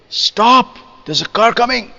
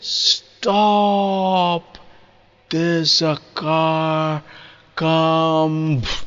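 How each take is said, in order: First: The warning is said quickly and urgently. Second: The warning is said slowly and drawn out. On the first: The speaker calls it right. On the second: The speaker calls it wrong.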